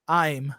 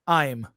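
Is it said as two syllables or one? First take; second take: one syllable; one syllable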